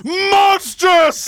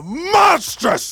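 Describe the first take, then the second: First: Higher and louder, falling howl; outraged shout. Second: Outraged cry. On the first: Jealous husband repeating his horror, outraged shout. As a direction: hurl the word out in horror. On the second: Jealous husband horrified by the news, outraged cry. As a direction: let the word tear out of you. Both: Acted. Othello enraged at the report.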